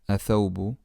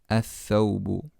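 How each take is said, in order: First: The th sound is short and single. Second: The th sound is held and doubled. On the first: The speaker calls it wrong. "Not athawbu" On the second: The speaker calls it right. "We have to give a shadda on the letter after the lam"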